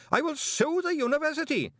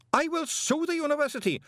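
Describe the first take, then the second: First: Much higher shrieked repeat; panicked screaming threat; screamed again. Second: Much higher shrill shriek; screamed threat. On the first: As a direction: shriek it once more, out of control. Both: Acted. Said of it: "screamed Greeningham".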